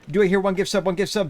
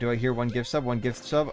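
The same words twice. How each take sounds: First: It is read like an auctioneer's patter. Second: It is read in a plain voice.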